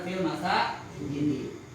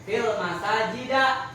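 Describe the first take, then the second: First: The last word ends with an 'i' vowel. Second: The last word ends with an 'a' vowel. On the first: The speaker calls it right. "yang benar" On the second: The speaker calls it wrong.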